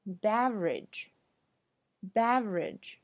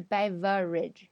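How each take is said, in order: First: Beverage slowly as BEV-rij; syllable dropped. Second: Beverage as BEV-uh-rij; wrong full form. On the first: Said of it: "省略了中间那个v". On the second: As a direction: sound the middle "vuh" in beverage. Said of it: "不是beverage". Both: Shown as a demonstration.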